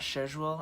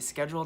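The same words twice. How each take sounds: First: It is said with the British pronunciation. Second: It is said with the American pronunciation. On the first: This is the way people say it in Britain. The speaker calls it wrong. "that's a very British thing" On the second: This is how the speaker normally says it. The speaker calls it right. "I say schedule"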